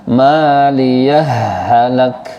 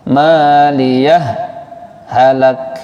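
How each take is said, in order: First: The two words run together with no pause. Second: A short held pause separates the two words. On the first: "Kalau idgham bagaimana? Langsung ditekan" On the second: "Kalau saktah bagaimana? Maliyah, tahan nafas, dua ketuk"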